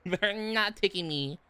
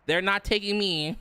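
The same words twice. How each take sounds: First: Slow repeat with "not" stretched out; emphatic refusal. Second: Said in the usual way. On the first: Real, not acted. Refusing to be drafted, slow stress on "not". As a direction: draw out "not" in "They're not taking me".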